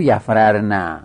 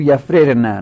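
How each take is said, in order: First: یفررنه said with the two r's merged, the form to avoid; slower یفررنه showing the mistaken merged reading; یفررنه with a doubled r and no kasra, as the wrong example. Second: یفررنه said yafrirna, kasra on the first r; یفررنه with the first ra given kasra, teaching the right form; یفررنه pronounced yafrirna, first r with kasra; correct form. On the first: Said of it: "نگو". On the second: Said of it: "بگو". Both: Shown as a demonstration.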